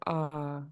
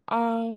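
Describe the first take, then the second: First: The long vowel is said on a low pitch. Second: The long vowel is said on a high pitch. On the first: "first one is long and low" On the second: "And high tone"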